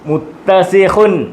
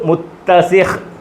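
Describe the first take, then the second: First: The word ends with a nasal 'un' ending. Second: The word ends on a bare final consonant.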